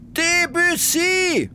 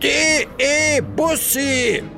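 First: It is one word, said the French way. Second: It starts with spelled-out letters, German style. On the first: The speaker calls it right. "Man muss es französisch aussprechen" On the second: The speaker calls it wrong. "Ich Trottel"

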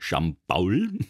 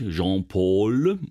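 First: The name is said with local Franconian pronunciation. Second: The name is said with French pronunciation. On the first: The speaker comes from the local region. "aus dem tiefsten Sechsämterland" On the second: The speaker comes from France. "aus Frankreich"

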